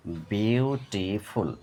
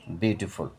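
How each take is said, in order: First: বিউটিফুল slow as বিউ, টি, ফুল; split in three syllables. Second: Said in the usual way. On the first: Shown as a demonstration. Teacher showing syllables, বিউটিফুল slowly broken up. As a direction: give বিউটিফুল three beats. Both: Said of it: "তিনবারে ভেঙে উচ্চারণ করা হয়".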